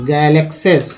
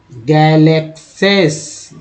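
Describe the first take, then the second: First: Said in the usual way. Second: गैलेक्सेस stretched out slowly, syllable by syllable; teacher drawing out गैलेक्सेस slowly; slow spelled-out reading. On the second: Shown as a demonstration. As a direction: read गैलेक्सेस very slowly for the class to follow. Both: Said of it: "ध्यानपूर्वक देखेंगे समझ में आएगा कि कैसे पढ़ा गया है".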